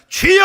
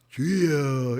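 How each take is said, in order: First: It is shouted loudly and forcefully. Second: It is said weakly, without force.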